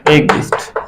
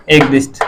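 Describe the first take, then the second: First: एक दिष्ट breathed out softly, almost whispered; soft repeat. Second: Said in the usual way. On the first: Shown as a demonstration. Teacher writing on the board, murmured repeat. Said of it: "repeating the Hindi term". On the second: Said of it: "teacher dictating the Hindi term".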